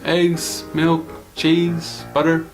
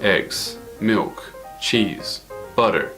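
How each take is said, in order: First: The voice stays level on each listed item. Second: The voice falls on each listed item. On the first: The speaker calls it right. "It's just going across. ... like this" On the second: The speaker calls it wrong. "If it went down, it would sound like"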